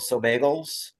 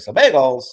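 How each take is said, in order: First: It is said in a plain, ordinary voice. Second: It is said with a Valley-girl inflection.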